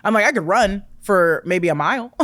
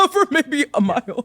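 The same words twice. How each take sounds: First: Said in the usual way. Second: Laughing. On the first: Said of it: "repeated phrase". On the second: Shown as a demonstration. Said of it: "laughing repeat".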